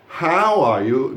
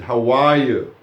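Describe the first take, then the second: First: The stress is on how. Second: The stress is on are.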